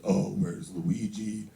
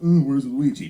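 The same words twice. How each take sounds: First: Slow, drawn-out taunt in dad's voice; mock taunt, dragged out low; dad quoting a teaser. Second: Loud mock taunt from a kid; imitated playground jeer, sudden and loud; teasing kindergartner. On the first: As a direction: imitate dad slowly mimicking a bully. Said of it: "That's how he talks". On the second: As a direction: blurt it out like a teasing child. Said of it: "someone's like".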